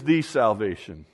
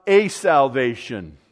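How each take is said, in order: First: "the" said as a long "thee" before "salvation"; stress on THE. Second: "a" said as a long "ay", set apart before "salvation"; stress on A. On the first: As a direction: land firmly on "the" as the one and only. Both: Shown as a demonstration. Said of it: "Each of these is definitive".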